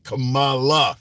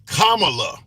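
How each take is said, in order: First: The name does not start like 'comma'. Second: The name starts like the word 'comma'. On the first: The speaker calls it wrong. "mispronounce the uh, presidential contender's name incorrectly, and they say Kamala, which often reminds me of that wrestler" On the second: The speaker calls it right. "the actual name is Kamala, like the punctuation comma L A"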